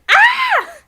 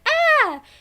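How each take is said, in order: First: It is a really violent, intense scream. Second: It is Tails' usual, milder scream.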